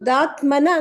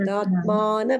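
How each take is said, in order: First: The vowel after 'atm' is short. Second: The vowel after 'atm' is long. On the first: The speaker calls it wrong. "ದಾತ್ಮನ ಅಂತಿದ್ದೀರ" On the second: The speaker calls it right. "ದಾತ್ಮಾನ ಬರ್ಬೇಕು"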